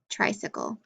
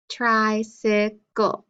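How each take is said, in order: First: Said in the usual way. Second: "Tricycle" slowly in three separate beats; syllable by syllable. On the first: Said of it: "clap for each syllable that you hear". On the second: Shown as a demonstration. Teacher counting syllables for pupils, "Tricycle" syllable by syllable. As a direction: sound out "Tricycle" slowly as tri, cy, cle. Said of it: "Three syllables".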